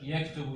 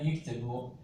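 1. Birinci ünlü a sesidir. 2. Birinci ünlü i sesidir. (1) "Yektubu yerine" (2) "yiktibu kullanılır"

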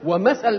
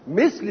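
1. الحركة الأولى هي a، والحرف الثاني يأخذ a. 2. الحركة الأولى هي i، والحرف الثاني بلا حركة. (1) "بفتح الميم وفتح الثاء" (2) "بكسر الميم وسكون الثاء"

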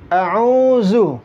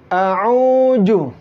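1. Suku kata terakhir dibaca dengan z biasa. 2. Suku kata terakhir dibaca dengan j. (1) "Sering juga dibaca zu" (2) "Sering dibaca ju"

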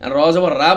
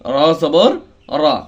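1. শেষের স্বরধ্বনিটি একটি পাতলা, খোলা 'aa'। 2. শেষের স্বরধ্বনিটি একটি পূর্ণ, গোলাকার 'o'-এর মতো শব্দ। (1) "র জবর রা বলা যাবে না, তাহলে এমালা হয়ে যাবে"

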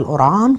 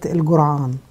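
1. يُنطق الاسم بالعامية المصرية. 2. يُنطق الاسم بلهجة الصعيد. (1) "بالعامية القرعان" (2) "بتوع سوهاج وبتوع الصعيد بيقولوها قرية الجرعان"

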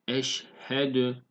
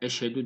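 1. H sesi açıkça telaffuz edilir. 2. H sesi silik, zar zor duyulur. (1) "Buradaki h'yi belli edeceğiz" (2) "mesela eşhedü değil"

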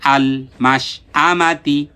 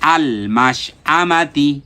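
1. শব্দাংশগুলো জুড়ে একটা মসৃণ শব্দ হয়ে যায়। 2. শব্দাংশগুলো জুড়ে একটা মসৃণ শব্দ হয়ে যায়।

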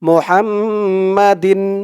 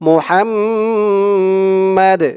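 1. শব্দটি একটি যুক্ত din উচ্চারণ দিয়ে শেষ হয়। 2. শব্দটি একটি সাধারণ d ধ্বনি দিয়ে শেষ হয়। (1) "যদি আপনারা এখানে না থামেন, পরের শব্দ ধরে পড়েন" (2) "এখানে থামলে উচ্চারণটা হবে মোহাম্মাদ"

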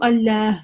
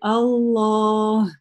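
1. Звук l мягкий, палатализованный. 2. Звук l твёрдый, веляризованный. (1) "здесь я не говорю «Аллях»" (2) "я говорю «Аллах». То есть «лям» здесь твердое"

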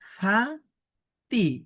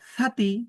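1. অংশ দুটি বিরতি দিয়ে আলাদাভাবে উচ্চারিত হয়। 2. অংশ দুটি জুড়ে একটি শব্দ হয়ে যায়। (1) "আলাদা আলাদা আলাদা উচ্চারণ করছি" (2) "একসাথে উচ্চারণ করছি"

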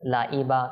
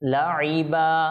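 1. মাঝের ব্যঞ্জনটি একটি সাধারণ হামযা (গ্লটাল স্টপ)। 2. মাঝের ব্যঞ্জনটি একটি গভীর, গলার আইন ধ্বনি। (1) "কেউ যদি বলে লাইবা তাহলে এটা ভুল হয়ে যাবে" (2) "আইনকে আইনের মতো করে যেন আমরা উচ্চারণ করি"

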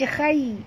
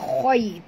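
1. Huruf kh ringan dengan vokal tipis. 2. Huruf kh berat dengan vokal tebal. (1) "Jangan baca khai" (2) "Tapi baca khoi, tebal ya"

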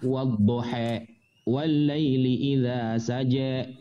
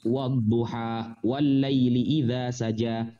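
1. Vokal panjang diucapkan condong ke e. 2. Vokal panjang diucapkan sebagai a terbuka. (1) "agak miring" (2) "Kalau Sayyidina Utsman membaca begini"

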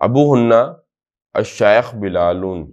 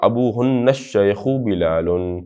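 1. शब्द अलग-अलग पढ़े जाते हैं, बिना जोड़े। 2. शब्द जुड़कर एक प्रवाह में पढ़े जाते हैं।

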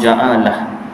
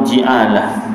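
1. Vokal pertama adalah bunyi a. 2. Vokal pertama adalah bunyi i.

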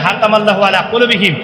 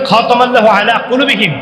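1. প্রথম শব্দটি নরম 'h' শব্দ দিয়ে শুরু। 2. প্রথম শব্দটি ঘষা 'kh' শব্দ দিয়ে শুরু। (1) "কিন্তু উচ্চারণ করে" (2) "কোরআন শরীফ পড়ে পড়ে"

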